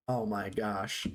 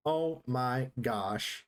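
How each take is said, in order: First: Said in the usual way. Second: Very slow, word by word; deliberate, spaced-out disbelief; slow, emphatic exclamation. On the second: Real, not acted. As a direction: draw out each word with a pause between, low. Repeats it slowly for emphasis.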